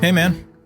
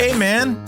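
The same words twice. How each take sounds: First: It is said with little enthusiasm. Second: It is said with lots of enthusiasm.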